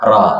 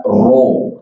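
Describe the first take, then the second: First: Ro with open mouth; ro said mangap; correct ro. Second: Ro with rounded lips; pursed ro; ro said pouted; wrong ro. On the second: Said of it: "Jangan dibaca ro". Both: Shown as a demonstration.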